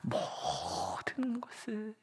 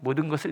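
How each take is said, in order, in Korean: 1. 힘주어 강하게, 감정을 실어 말해요. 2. 감정 없이 밋밋하게 말해요.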